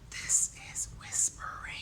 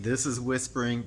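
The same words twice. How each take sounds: First: It is said in a soft whisper. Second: It is said in a loud voice. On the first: The speaker calls it right. "Whisper is not loud" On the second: The speaker calls it wrong. "Some of you think this is whispering"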